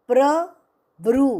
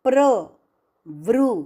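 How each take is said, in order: The two takes are said the same way.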